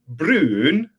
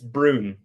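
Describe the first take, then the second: First: The vowel is an unusual, foreign-sounding rounded sound. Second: The vowel is a plain English 'oo' sound. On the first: This is how the name would be said in Norway. "in Norwegian, it would be pronounced like Brun, like a weird kind of uh sound" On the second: This is how the family says the name. "it's Brune"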